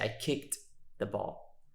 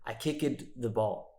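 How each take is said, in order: First: The ending of kicked is a short 't' sound. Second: The ending of kicked is an extra 'id' syllable. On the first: The speaker calls it right. "That one is a T sound" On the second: The speaker calls it wrong. "Many, many students will just say id. ... This is not correct"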